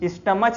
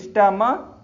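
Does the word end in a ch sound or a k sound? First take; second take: ch sound; k sound. First: The word ends with a ch sound. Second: The word ends with a k sound. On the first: The speaker calls it wrong. "स्टमच नहीं बोलते" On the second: The speaker calls it right. "का बोलते हैं ना इसको"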